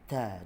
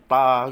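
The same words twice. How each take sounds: First: The ta sound is said soft and breathy. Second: The ta sound is said hard and forcefully. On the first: The speaker calls it right. "Dia lembut je" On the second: The speaker calls it wrong. "Jangan ta gitu"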